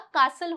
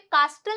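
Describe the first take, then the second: First: No t sound is pronounced after the s. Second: A clear t sound is pronounced after the s. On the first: The speaker calls it right. "कासल होता है" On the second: The speaker calls it wrong. "यहाँ पे कास्टल नहीं होता"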